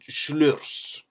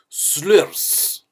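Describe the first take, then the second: First: The name begins with an sh sound. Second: The name begins with a plain s sound.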